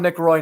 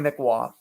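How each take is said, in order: First: The surname rhymes with 'boy'. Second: The surname sounds like 'rwah'. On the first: The speaker calls it wrong. "So not Roy's" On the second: The speaker calls it right. "pronounced Patrick Waugh"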